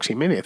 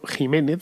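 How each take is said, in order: First: The name begins with a 'ks' sound. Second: The name begins with a harsh 'j' sound. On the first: The speaker calls it wrong. "no es al Pedro Ximénez" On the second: The speaker calls it right. "es al Pedro Jiménez"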